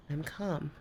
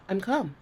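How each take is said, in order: First: Much softer, settling the voice down; softer calm. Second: Said in the usual way. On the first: Real, not acted. Softly assuring the angry partner she is calm. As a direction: bring it right down to prove the calm.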